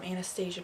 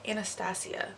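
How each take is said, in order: First: Anastasia said "anna-STAY-zhuh"; mispronounced Anastasia. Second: Anastasia said "anna-STAH-see-uh"; corrected pronunciation. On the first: Vlogger naming her brow product, Anastasia mispronounced as anna-STAY-zhuh. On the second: Vlogger correcting herself to viewers, Anastasia pronounced with a see-uh ending. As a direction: end Anastasia in see-uh, with no zh sound. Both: Real, not acted. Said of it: "That's how you pronounce it".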